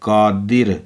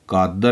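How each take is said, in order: First: The second syllable has an 'i' vowel. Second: The second syllable has an 'a' vowel. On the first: The speaker calls it right. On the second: The speaker calls it wrong.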